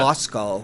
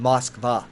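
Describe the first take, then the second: First: The name ends with a 'cow' or 'coe' sound. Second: The name ends with a clear 'kva' sound. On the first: This is the usual English name for the city. The speaker calls it wrong. "the English pronunciation" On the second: This is what the city is really called. The speaker calls it right. "it's actually called Moskva"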